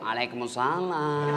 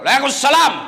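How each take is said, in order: First: It is said in a soft, lilting, sweet voice. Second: It is said in a firm, curt voice.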